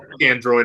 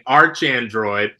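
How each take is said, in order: First: The first word ends with a hard k sound. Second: The first word ends with a ch sound. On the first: The speaker calls it right. "so you were right when you first pronounced it" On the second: The speaker calls it wrong. "and I was saying"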